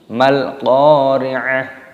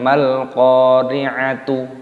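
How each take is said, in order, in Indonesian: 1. Kata itu berakhir dengan bunyi h yang lembut. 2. Kata itu berakhir dengan bunyi t dan vokal u. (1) "tapi sama dengan hal yang ini" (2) "bukan mal-qari'atu"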